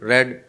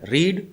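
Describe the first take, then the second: First: The vowel is short, like 'red'. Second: The vowel is long, like 'reed'. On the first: It is the past form of the verb. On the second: It is the present form of the verb.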